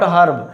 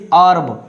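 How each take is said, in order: First: HERB with the H breathed at the start; sounded H. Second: HERB begun straight on the vowel; American silent H. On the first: Teacher shows what American English avoids, HERB with H. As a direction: say HERB with an H, the British way. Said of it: "not herb". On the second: Teacher models American English, HERB with silent H. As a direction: say HERB as "erb". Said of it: "in American English". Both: Shown as a demonstration.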